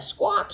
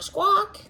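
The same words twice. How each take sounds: First: Said in the usual way. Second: Parrot squawk. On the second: Retold or imitated. Teaching a child, imitates a parrot squawk high. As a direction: squawk like a parrot, much higher. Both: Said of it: "they like to squawk".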